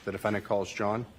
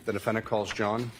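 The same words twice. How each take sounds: The two takes are said the same way.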